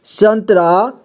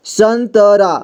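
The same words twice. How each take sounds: First: Said in the usual way. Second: संतरा spelled out as san-ta-raa; syllable-by-syllable reading. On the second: Shown as a demonstration. Teacher showing learners how to join letters, संतरा as san-ta-raa. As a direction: give संतरा a full middle vowel. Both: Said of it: "जोड़ जोड़ करके पढ़ना है".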